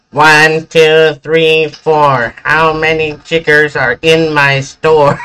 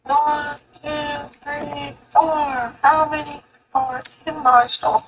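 First: Higher, nasal meme impression; raised nasal sing-out. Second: Pinched nasal meme voice. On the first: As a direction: mimic the meme in a nasal voice, pitched up. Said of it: "like, a nasal tone voice". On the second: Retold or imitated. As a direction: say it through the nose. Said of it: "a nasal tone voice".

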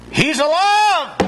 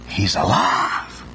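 First: Slow, high, ringing proclamation; proclaimed. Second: Slow, hushed whisper. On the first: Preacher proclaims the resurrection to the congregation, high and ringing. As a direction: lift it up triumphantly. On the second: Preacher whispers to the congregation, slow and awed. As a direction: breathe it out in awe. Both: Acted.

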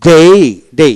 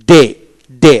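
First: ডে stretched into "dei", British style as taught; British pronunciation. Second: ডে with one pure e vowel, American style as taught; American pronunciation. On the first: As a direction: glide to an i at the end of ডে. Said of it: "তারপর ডে হচ্ছে ব্রিটিশটা". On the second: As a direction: say ডে without a final i glide. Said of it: "ডে হচ্ছে American pronunciation". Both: Shown as a demonstration.

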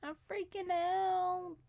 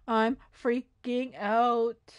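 First: "I'm freaking out" high, soft and drawn out; a small, high, stretched "I'm freaking out"; high-pitched freak-out. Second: "I'm freaking out" very slow, broken into chunks; slow, deliberate "I'm freaking out"; drawn-out freak-out. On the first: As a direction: squeak out "freaking out" slowly and softly. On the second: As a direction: stretch "freaking out" out word by word. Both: Pretend. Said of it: "How many times am I gonna say I'm freaking out".

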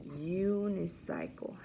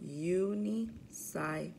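First: Said in the usual way. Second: Unicycle split into u-ni-cy-cle with gaps; syllable by syllable. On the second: Shown as a demonstration. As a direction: count out the beats of Unicycle, u, ni, cy, cle. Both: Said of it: "practice our counting syllables".

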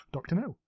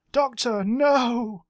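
First: Soft, flat repeat; deadpan. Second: Dramatic cry. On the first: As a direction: say it quietly, unimpressed. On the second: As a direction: cry out to the Doctor. Dramatic Doctor Who cry. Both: Pretend.

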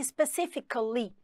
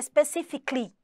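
First: SPECIFICALLY slow, with the A before LY sounded; slow specifically, every ending syllable heard; linking A. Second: SPECIFICALLY squeezed to end "fic-lee"; specifically, ending jammed as "ficly"; run-together ending. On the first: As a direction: say specifically as "spe-ci-fi-ca-lly". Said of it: "Coloca um Azinho". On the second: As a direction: say specifically with no A before LY. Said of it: "Mesma coisa, ia ficar specifically". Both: Shown as a demonstration.

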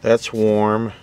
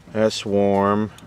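Both takes have the same delivery.

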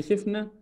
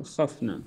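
First: "خفنا" said khifna, short "i" after kha; past form, kasra. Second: "خفنا" said khafna, short "a" after kha; imperative form, fatha. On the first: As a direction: give "خفنا" an "i" in the first syllable. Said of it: "الماضي". («خفنا» بكسر الخاء للماضي) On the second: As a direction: give "خفنا" an "a" in the first syllable. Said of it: "والأمر". («خفنا» بفتح الخاء للأمر) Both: Shown as a demonstration.

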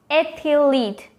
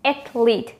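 First: "athlete" as ATH-uh-leet, very slowly; wrong three syllables. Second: "Athlete" as ATH-leet; no vowel between th and l in "Athlete"; correct two syllables. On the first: Teacher showing what not to say, wrong three syllables. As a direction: draw out "athlete" with an extra middle vowel. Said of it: "No, it's wrong". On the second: Teacher giving the answer, correct two syllables. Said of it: "just with two syllables". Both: Shown as a demonstration.

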